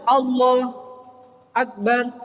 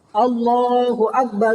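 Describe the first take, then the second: First: A short pause separates the two words. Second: The two words run together without a pause. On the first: "atau mandek" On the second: "itu tidak apa-apa"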